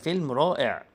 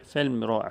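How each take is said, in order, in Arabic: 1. بيتقال بصوت فرحان. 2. بيتقال بصوت حزين. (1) "بصوت فرحان" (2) "بصوت حزين"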